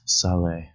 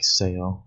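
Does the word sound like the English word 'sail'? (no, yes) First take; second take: no; yes. First: It does not sound like English 'sail'. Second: It sounds like the English word 'sail'. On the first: The speaker calls it right. "It's sale" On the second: The speaker calls it wrong. "This is not pronounced like sail, like it's spelled in English"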